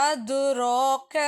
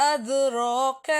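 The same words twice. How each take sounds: No difference in how they are said.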